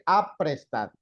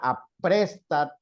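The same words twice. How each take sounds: First: The stress is on the first syllable. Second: The stress is on the second syllable. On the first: "Si fuera la A" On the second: "tendría que tener acento porque termina en D"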